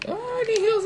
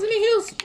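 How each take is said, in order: First: Much higher squeaky voice, mocking a healer-begging ally; mock whiny teammate. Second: Mock whiny teammate. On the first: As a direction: whine for heals in a put-on high voice. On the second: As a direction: repeat the plea even higher and a bit louder, still mocking. Mocking a teammate begging for heals.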